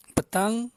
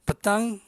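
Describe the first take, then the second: No difference in how they are said.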